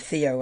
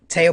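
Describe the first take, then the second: First: The name is said the English way. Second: The name is said the French way. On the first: The speaker calls it wrong. "rather than Theo" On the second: The speaker calls it right. "I think that's how you say his name"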